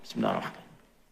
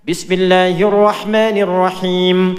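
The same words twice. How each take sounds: First: It is said quietly, almost under the breath. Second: It is said loudly and clearly aloud.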